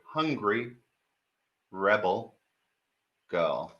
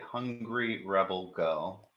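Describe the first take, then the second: First: It is said slowly and clearly. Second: It is said at normal speed.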